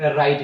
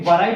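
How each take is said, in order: First: It begins directly with the r sound. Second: It begins with a w sound before r. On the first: The speaker calls it right. "डब्ल्यू को silent करते हैं और आर से उच्चारण शुरू करते हैं" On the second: The speaker calls it wrong. "वराइट लिखते हैं कभी, नेवर"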